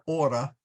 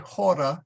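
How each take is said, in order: First: The word begins without any h sound. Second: The word begins with an audible h sound. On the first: The speaker calls it wrong. "not not ora" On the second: The speaker calls it right. "I will say hora"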